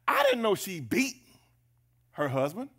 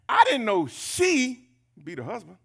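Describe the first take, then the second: First: The word beat is stressed. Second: The word she is stressed. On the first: The surprise is that she hits him. "Emphasis on beat" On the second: The surprise is that she is the one hitting. "Well, who else does it?"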